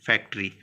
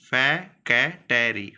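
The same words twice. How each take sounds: First: Said in the usual way. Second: फैकेटरी stretched very slowly, every syllable split fa-ke-ta-ri. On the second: Shown as a demonstration. Teacher breaks the word into syllables for students, slowly. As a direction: spell out फैकेटरी slowly, sound by sound.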